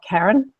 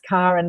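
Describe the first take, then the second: First: The first vowel is not an open 'ah'. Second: The first vowel is an open 'ah' sound. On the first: This is the common pronunciation others use. The speaker calls it wrong. "not Karen" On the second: This is the speaker's own chosen pronunciation. The speaker calls it right. "just the hard A actually is the sound of the heart chakra"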